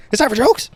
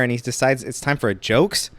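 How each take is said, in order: First: "It's time for jokes?" jumping much higher and louder, rising at the end; incredulous repeat. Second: Said in the usual way. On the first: Real, not acted. Repeating the boyfriend's excuse to the audience, incredulous. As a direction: throw the line back in disbelief.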